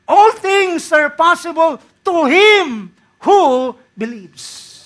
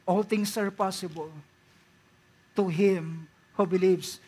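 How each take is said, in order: First: High and loud, falling away on believes; preacher proclaiming the verse full voice; loud slow proclamation. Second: Gentle, lower repeat of the verse. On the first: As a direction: declare it to the back row. Proclaims verse, then repeats quietly. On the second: Same verse repeated softly. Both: Acted.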